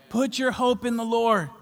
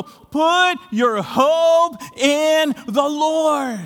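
First: Said in the usual way. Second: Very slow, loud and higher, each word drawn out; stretched, ringing exhortation; preaching shout. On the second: Real, not acted. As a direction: call it out like a command from the pulpit.

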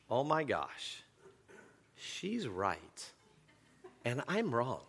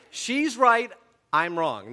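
First: Soft inner realisation, half to himself; hushed voice in his head admitting defeat; quiet inner voice. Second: She's right punched out louder and higher, I'm wrong dropping back; firm realisation. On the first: Pastor voicing his inner thought mid-argument with wife, hushed. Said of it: "I will hear this voice in my head". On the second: Pastor replaying his rational reflection during the argument, emphatic. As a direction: declare she's right loudly, then concede I'm wrong. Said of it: "It's in my mind". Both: Retold or imitated.

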